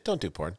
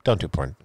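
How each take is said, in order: First: Low, soft earnest warning; quiet sincere friend's advice; sincere plea. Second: Mock sincere. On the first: Retold or imitated. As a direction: say it as a worried friend. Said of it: "It was so, it was so sincere". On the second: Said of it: "He's like".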